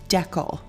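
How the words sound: It is said with the Canadian pronunciation. "I am from Canada and we say decal"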